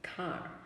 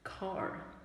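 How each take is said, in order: First: British accent, with no r sound at the end. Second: American accent, with the final r pronounced. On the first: "in British English, um, they only pronounce R if the R follows a vowel sound" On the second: "in American English, every print, uh, printed R is pronounced"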